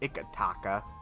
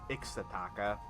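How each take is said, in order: First: The name is said without an s sound. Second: The name is said with an s sound. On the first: The speaker calls it right. "I think it's like Ikataka" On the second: The speaker calls it wrong. "like putting an S in there randomly"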